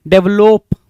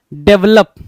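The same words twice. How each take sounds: First: डेवलप louder, with long "lope" ending; misspelling read out. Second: डेवलप louder, with short "lup" ending; correct pronunciation. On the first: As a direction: sound out डेवलप as "dev-LOHP". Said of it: "और यहाँ क्या बोल रहा है भाई". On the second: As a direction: announce डेवलप as "DEV-lup". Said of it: "बिल्कुल simple spelling होती है भाई डेवलप की". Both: Shown as a demonstration.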